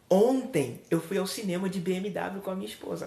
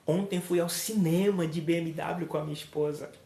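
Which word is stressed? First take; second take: ontem; cinema. First: The word ontem carries the emphasis. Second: The word cinema carries the emphasis. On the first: The day is the main message. "Observe que eu dei ênfase no ontem" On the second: The place is the main message. "Se é o local onde eu vou"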